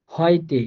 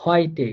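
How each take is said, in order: First: Said in the usual way. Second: হয়টে said slowly, with eu as অয়; slowed teacher model of হয়টে; slow demo. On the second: Shown as a demonstration. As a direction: spell out হয়টে carefully for learners. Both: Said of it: "অয় এর মতো করে".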